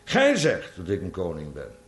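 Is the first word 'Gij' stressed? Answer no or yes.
yes. The first word 'Gij' is stressed. Those are the other person's words, not a claim. The speaker calls it right. "Met andere woorden, ik heb dat nooit gezegd"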